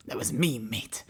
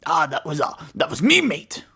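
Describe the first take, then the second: First: Hushed Cockney mimicry; muted mock Cockney. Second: Mock Cockney. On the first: Player repeating the robot's line to self, hushed mock Cockney. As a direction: echo the Cockney under your breath. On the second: Player parroting the Cockney robot's line, loud mock Cockney. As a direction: throw out a hammed-up Cockney echo.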